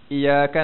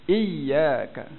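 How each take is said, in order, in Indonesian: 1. Bunyi 'y' dibaca tunggal dan ringan. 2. Bunyi 'y' dibaca ganda dan ditekan. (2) "kena tekan dekat ya tu"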